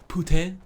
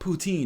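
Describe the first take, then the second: First: It is said an alternative, less familiar way. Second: It is said the common, familiar way. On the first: The speaker calls it right. "It's actually pronounced poutine" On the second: The speaker calls it wrong. "technically, it's not pronounced poutine"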